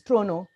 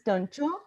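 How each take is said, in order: First: It is said with a Canadian pronunciation. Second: It is said with an Indian pronunciation. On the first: The speaker calls it right. "in Canada, the right pronunciation is Toronto" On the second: The speaker calls it wrong. "In India, we pronounce Toronto"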